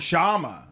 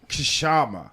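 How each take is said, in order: First: The word starts with an sh sound. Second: The word starts with a k sound. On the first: The speaker calls it right. "the K is silent" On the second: The speaker calls it wrong. "I thought it was"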